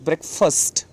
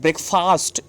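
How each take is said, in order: First: The second syllable has a reduced 'fust' vowel. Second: The second syllable has a full 'fast' vowel. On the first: The speaker calls it right. "It is ब्रेकफास्ट। ... फास्ट नहीं लगाना है, फर्स्ट बोलना है" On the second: The speaker calls it wrong. "It is not ब्रेकफास्ट"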